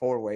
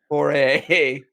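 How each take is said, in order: First: It is said with a w sound: four way. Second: It is said without a w sound: four A. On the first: The speaker calls it wrong. "I always say four way. It's not four way" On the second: The speaker calls it right. "Thank you. My first"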